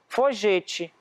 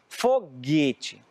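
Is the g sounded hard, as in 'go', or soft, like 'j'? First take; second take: soft; hard. First: The g is a soft sound, like 'j'. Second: The g is a hard sound, as in 'go'. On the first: "e se a gente não usar a letra U, vai ficar como?" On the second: "olha como é o som, G"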